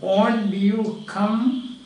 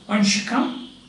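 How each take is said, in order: First: Said slowly, with the t and y kept apart. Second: Said fast, with the t and y merged together. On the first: "you are speaking slowly" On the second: "when you are very fast or say rapidly speaking"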